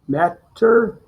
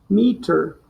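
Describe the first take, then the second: First: The first vowel is said short. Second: The first vowel is said long. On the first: "You're gonna do the short sound first" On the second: "and then the long sound"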